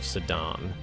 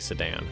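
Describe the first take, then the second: First: The name is said in a non-American way. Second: The name is said in an American way. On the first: "I want to pronounce it like that" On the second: "In American, it's definitely Sedan"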